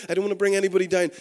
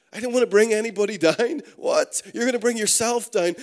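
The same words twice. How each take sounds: First: Rattled off quickly, a little raised; quoted excuse. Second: Louder and higher, rising in disbelief; mock incredulous. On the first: Retold or imitated. Preacher quoting an attitude he hates, rattled off quickly. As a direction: reel off the excuse fast. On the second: Preacher repeating words he hates, mock incredulous. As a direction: throw the excuse back, half laughing, appalled.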